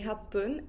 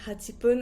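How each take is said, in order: First: The number is shortened with a brief stop. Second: The full number is said before pun. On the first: The speaker calls it right. "I say happun" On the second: The speaker calls it wrong. "I don't say hachipun"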